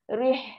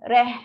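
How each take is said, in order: First: The vowel is a close 'ee' sound. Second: The vowel is an open 'eh' sound. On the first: The speaker calls it right. "Tapi setelkan ruang bawah ri dulu" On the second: The speaker calls it wrong. "Jangan reh"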